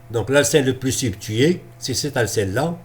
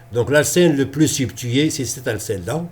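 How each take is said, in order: No difference in how they are said.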